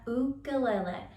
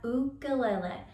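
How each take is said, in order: First: It is said with the native Hawaiian pronunciation. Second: It is said with the native Hawaiian pronunciation.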